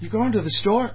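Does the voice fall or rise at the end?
rises. The voice rises at the end. It is a question.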